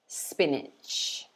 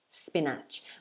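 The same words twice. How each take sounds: First: The second vowel sounds like the first. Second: The second vowel sounds different from the first. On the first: The speaker calls it right. "it should be pronounced like this" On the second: The speaker calls it wrong. "some students try to pronounce it spinach"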